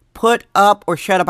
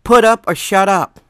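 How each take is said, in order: First: Hushed whisper, driving the point home. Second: A forceful, hissed whisper; a loud stage whisper, daring the mayor; fierce whisper. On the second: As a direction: hiss the ultimatum at her under your breath. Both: Retold or imitated. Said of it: "I'm like".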